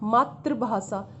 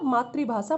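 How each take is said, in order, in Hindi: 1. दूसरा अक्षर 'tra' की तरह बोला जाता है। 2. दूसरा अक्षर 'tri' की तरह बोला जाता है। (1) "बोलते क्या है इसको मातृभाषा" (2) "मातृभाषा मदर टंग होता है"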